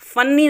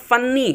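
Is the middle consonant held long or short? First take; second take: long; long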